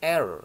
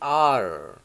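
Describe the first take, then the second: First: The letter is read with Indonesian letter sounds. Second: The letter is read with English letter sounds. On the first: The speaker calls it wrong. "bukan R ya" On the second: The speaker calls it right. "tapi R"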